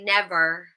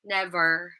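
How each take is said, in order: First: It ends with a clearly pronounced R sound. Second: It ends with a clearly pronounced R sound.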